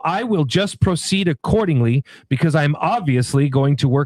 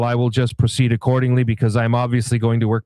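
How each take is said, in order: First: It is read in a pointed, judgmental tone. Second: It is read in a flat, neutral monotone. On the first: It adds an attitude the writer may not have meant. The speaker calls it wrong. "reading it in a tone that may not be hers" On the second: It conveys the message without added attitude. The speaker calls it right. "I got to read it like the professor says"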